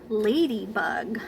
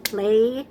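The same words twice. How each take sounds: First: Said in the usual way. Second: "Ladybug" in three separate, even beats; counting out syllables. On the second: Shown as a demonstration. Teacher counting syllables with preschoolers, one beat at a time. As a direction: break "Ladybug" into three syllables with gaps between. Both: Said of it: "Let's count".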